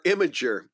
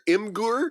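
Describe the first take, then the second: First: The name sounds like 'im-a-jer', with a soft g. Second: The name sounds like 'im-gur', with a hard g. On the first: "it's either Imgur or Imager" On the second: "it's either Imgur or Imager"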